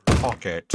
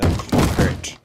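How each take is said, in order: First: A light Alan Partridge impression, "Pocket" said flat and clipped; tossing off "Pocket" as Alan Partridge would; Alan Partridge accent. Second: Whispered Alan Partridge take on "Pocket", louder and breathy; Alan Partridge accent. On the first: Streamer jokes to chat in an Alan Partridge accent. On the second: Retold or imitated. Streamer redoes the joke to chat in an Alan Partridge accent. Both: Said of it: "in an Alan Partridge accent".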